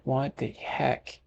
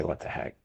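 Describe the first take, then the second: First: Slow, softer mock disbelief; mock indignant. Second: Said in the usual way. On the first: Retelling a reply to the lady about the accent, mock indignant. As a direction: draw it out in playful protest. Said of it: "And I'm like". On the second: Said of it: "No, I really didn't say".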